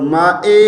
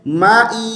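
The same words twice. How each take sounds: First: माए ending in an "ay" sound; wrong vowel. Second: माई ending in a clear "ee"; correct vowel. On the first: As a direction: show faulty माए with open e. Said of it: "माए नहीं है". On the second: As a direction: stretch माई into a pure long ee. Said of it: "ई की आवाज़ है". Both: Shown as a demonstration.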